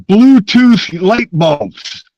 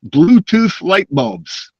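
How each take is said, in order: First: "Bluetooth light bulbs" said slow, much higher and louder, weight on "Bluetooth"; incredulous emphasis. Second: "Bluetooth light bulbs" said slow and higher, weight on "Bluetooth"; incredulous emphasis. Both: Real, not acted. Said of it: "what the hell?".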